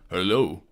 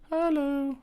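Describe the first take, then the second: First: Hello is said in a plain, ordinary voice. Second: Hello is said in a distinctive, annoying put-on voice. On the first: "It's not like" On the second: "it's a very distinct voice. ... It's like"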